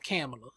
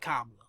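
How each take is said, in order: First: The first syllable sounds like 'Cam'. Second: The first syllable does not sound like 'Cam'. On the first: The speaker calls it wrong. "I thought it was Cam" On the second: The speaker calls it right. "but it's actually Kamala"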